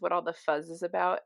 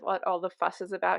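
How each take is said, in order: First: The word ends with a buzzing z sound. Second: The word ends with a hissing s sound. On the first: The speaker calls it wrong. "He says what all the fuzz is about" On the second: The speaker calls it right. "instead of what all the fuss is about"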